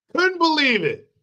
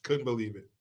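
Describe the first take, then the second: First: High, louder outraged disbelief. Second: Soft, low muttered disbelief; stunned and quiet. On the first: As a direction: throw it out, indignant. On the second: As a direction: say it under your breath. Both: Shown as a demonstration.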